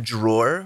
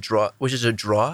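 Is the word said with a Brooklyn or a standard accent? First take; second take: standard; Brooklyn. First: It is said with a standard final r sound. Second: It is said with a Brooklyn accent, no final r. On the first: The speaker calls it right. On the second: The speaker calls it wrong.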